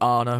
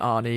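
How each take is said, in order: First: The name ends in an 'ah' vowel. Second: The name ends in an 'ee' vowel. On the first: This is the form the name's owner prefers. The speaker calls it right. "tries to correct it to be Arna" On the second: This is the form local fans naturally use. The speaker calls it wrong. "rather than Arnie because uh, that's that's the natural thing that we went to"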